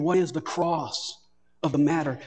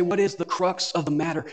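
First: "cross" said slowly in place of "crux", leaning on it; slow, stressed cross. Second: Said in the usual way. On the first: Shown as a demonstration. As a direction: land on "cross" as the hidden meaning of "crux". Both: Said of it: "you are saying".

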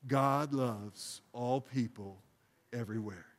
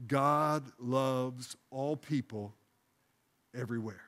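First: Calm prayerful recitation; slow prayerful phrase. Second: Slow, deliberate, softening at the end; calm prayerful recitation; slow prayerful phrase. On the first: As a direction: say it with the congregation. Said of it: "Would you say that with me?". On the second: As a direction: lead the church phrase by phrase. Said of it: "second phrase". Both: Shown as a demonstration.

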